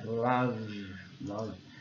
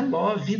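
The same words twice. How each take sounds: First: "love" as one syllable, like "luv"; low, falling "love" with no final vowel; correct "love", silent E. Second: "love" in two syllables, like "LAW-vee"; higher "love" read the Brazilian way, "lóvi"; wrong "love" with voiced E. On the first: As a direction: say "love" ending on the V, no ee. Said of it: "não é falado". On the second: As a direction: say "love" with an extra ee at the end. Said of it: "Também não é love". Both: Shown as a demonstration.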